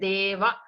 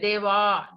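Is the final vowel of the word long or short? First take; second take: short; long. First: The final vowel is short and clipped. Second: The final vowel is drawn out long. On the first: A male deity is being addressed. The speaker calls it right. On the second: The word becomes feminine. The speaker calls it wrong.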